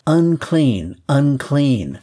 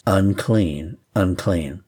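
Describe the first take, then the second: First: Higher, louder warning cry of unclean; leper's call. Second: Said in the usual way. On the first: Acted. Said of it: "required to call out to passerbys". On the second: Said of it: "or even the same words".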